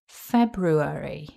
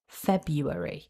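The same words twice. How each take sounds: First: The second syllable starts with an r sound. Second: The second syllable starts with a y sound. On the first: "Then syllable two is ru" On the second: "where the r in syllable two is replaced with a y"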